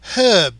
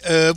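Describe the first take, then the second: First: British style, with the H clearly pronounced. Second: American style, with a silent H: 'erb'.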